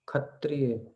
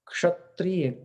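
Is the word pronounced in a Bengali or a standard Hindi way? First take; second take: Bengali; Hindi. First: It is said with a Bengali pronunciation. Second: It is said with a standard Hindi pronunciation.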